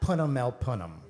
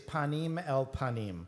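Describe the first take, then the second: First: It has 'uh' vowels, Boston Ashkenazic style. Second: It has open 'ah' vowels, standard Hebrew style.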